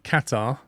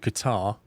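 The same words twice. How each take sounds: First: The word does not sound like catarrh. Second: The word sounds like catarrh. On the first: The speaker calls it right. "It's at Qatar" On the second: The speaker calls it wrong. "as opposed to Qatar, because Qatar is something you get in the nose"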